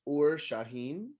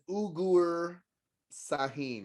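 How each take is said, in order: First: The name sounds like 'Ur Shaheen'. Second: The name sounds like 'Ugur Sahin'. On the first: The speaker calls it right. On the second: The speaker calls it wrong. "I thought his name was"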